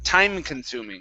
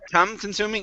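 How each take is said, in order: First: The first word has a long i vowel. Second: The first word has a short u vowel. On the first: The speaker calls it right. "this is a long I sound" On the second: The speaker calls it wrong. "instead of tum"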